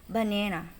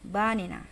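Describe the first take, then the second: Both takes have the same delivery.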